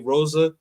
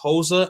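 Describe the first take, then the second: First: The first sound is an English R. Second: The first sound is like an H. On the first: "In English, we say" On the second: "in Portuguese is actually uh, / the R's are pronounced like H's"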